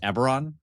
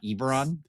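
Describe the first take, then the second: First: The first vowel is a short e. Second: The first vowel is a long e. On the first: The speaker calls it right. "the actual proper pronunciation is Eberron ... Short" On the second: The speaker calls it wrong. "not Eberron ... not long"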